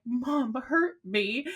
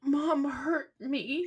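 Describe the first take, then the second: First: Put-on slow, whiny little-kid voice, pitch up; imitating hurt toddler. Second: Put-on high, slow, whimpering little-kid voice; imitating hurt toddler. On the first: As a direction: repeat the toddler's sulky complaint, lips trembling. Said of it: "that bottom lip just kept quivering". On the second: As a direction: mimic a toddler pouting with a trembling lip. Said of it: "his bottom lip starts trembling".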